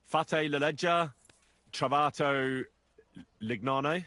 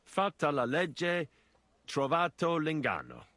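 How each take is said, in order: First: Fate la legge said with Fate as fa-teh instead of Fatta, and l'ignano with no ng before the n; mangled Italian. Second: Fatta said with a held double t and l'inganno with a clear ng and double n; corrected Italian. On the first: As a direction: botch the proverb like a clumsy learner. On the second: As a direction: say the proverb properly this time, carefully. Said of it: "Listen carefully". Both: Shown as a demonstration.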